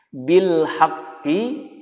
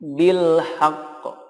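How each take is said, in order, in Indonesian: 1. Frasa ini berakhir dengan vokal pendek i. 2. Frasa ini berakhir dengan konsonan q yang ditekan dan memantul.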